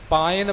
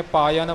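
First: ਪਾਇਨ said pain, one gliding syllable; ਪਾਇਨ as pa-in, no y sound; correct reading. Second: ਪਾਇਨ said pa-yan, two syllables; ਪਾਇਨ with a y glide, the common mistake; common wrong reading. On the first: Shown as a demonstration. Teacher gives the correct ਪਾਇਨ for students. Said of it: "ਪਾਇਨ ਪਾਠ ਸ਼ੁੱਧ ਹੈ". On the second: Retold or imitated. Teacher imitates reciters who say ਪਾਇਨ as pa-yan. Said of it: "ਆਮ ਤੌਰ 'ਤੇ ਜਿਹੜੇ ਪਾਠੀ ਸਿੰਘ ਨੇ, ਪਾਇਨ ਬੋਲ ਜਾਂਦੇ".

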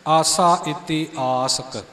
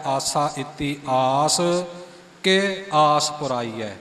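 First: ਆਸਕ said as one word, slow and falling; joined reading. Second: ਆਸ ਕੇ split into two words, ਆਸ rising; printed split reading. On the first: Teacher shows original joined reading ਆਸਕ. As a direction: join ਆਸਕ together, slowly. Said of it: "ਮੂਲ ਰੂਪ ਵਿੱਚ ਪਾਠ ਆਸਕ ਇਕੱਠਾ ਹੈ". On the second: Teacher shows the printed split reading ਆਸ ਕੇ. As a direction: say ਆਸ then ਕੇ apart, slowly. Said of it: "ਉਹ ਇਉਂ ਛਪਦਾ ਹੈ". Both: Shown as a demonstration.

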